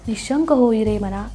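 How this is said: It is recited carefully and devoutly.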